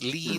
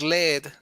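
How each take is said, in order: First: It is pronounced as the verb meaning guide. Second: It is pronounced as the name of the metal. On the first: It means to guide people. "is the conduction, or you guide" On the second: It names a heavy metal. "you wanted to convert lead into gold, and you pronounce lead"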